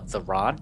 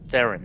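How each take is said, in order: First: It is split into two separate words. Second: It is said as one unbroken word. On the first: The speaker calls it wrong. "people read it wrong. Like it's the the Ron" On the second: The speaker calls it right. "there's no space break there"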